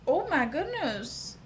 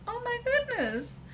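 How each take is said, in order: First: Delighted gasp. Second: Much higher, squealing oh my goodness; squealing delight. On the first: Delighted by her cheekbones. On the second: Girl thrilled at her own cheekbones in the mirror, squealing. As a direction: let it fly up into a delighted squeal. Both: Retold or imitated.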